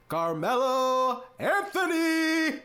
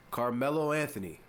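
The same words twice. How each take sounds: First: "Carmelo Anthony!" stretched out slowly, much higher and louder, "Anthony" held long; hype announcer call. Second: Said in the usual way. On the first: Shown as a demonstration. Host hyping his hero Melo's name, stretched announcer shout. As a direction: belt the name like an arena announcer introducing a star. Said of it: "I gotta say it like that almost every time". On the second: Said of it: "I gotta say it like that".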